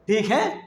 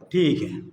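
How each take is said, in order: First: It is said as a question, rising. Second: It is said as a statement, falling. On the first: Is it fine? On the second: It is fine.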